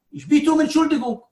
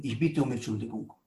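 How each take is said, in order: First: High, urgent plea for pardon; acted impassioned apology; pleading apology. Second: Low, soft, humble apology; acted contrite murmur; subdued apology. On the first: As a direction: beg pardon with the voice raised high. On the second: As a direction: apologize quietly, voice dropped right down.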